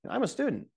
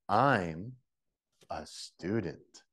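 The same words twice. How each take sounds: First: It is said quickly, with the words run together. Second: It is said slowly, with each word spoken clearly. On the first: "native level" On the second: "the last one is slow, so everybody can get it"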